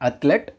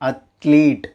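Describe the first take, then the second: First: The second vowel is a short 'e'. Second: The second vowel is a long 'ee'. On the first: The speaker calls it wrong. "Not அத்லெட்" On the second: The speaker calls it right. "உண்மையான pronunciation என்ன அப்படின்னா அத்லீட்"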